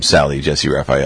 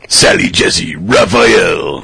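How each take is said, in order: First: The name is said in an ordinary speaking voice. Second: The name is said in a booming announcer voice.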